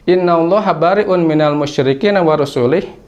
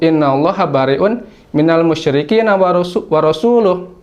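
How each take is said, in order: First: The last word ends with an i vowel. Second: The last word ends with a u vowel. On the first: God disowns both the polytheists and His messenger. The speaker calls it wrong. "membaca kalimat Rasul itu dengan majrur, yaitu dengan cirinya kasrah" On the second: His messenger also disowns the polytheists. The speaker calls it right. "seharusnya kata Rasul ini dibaca dengan marfu"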